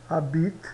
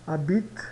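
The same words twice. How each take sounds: The two takes are said the same way.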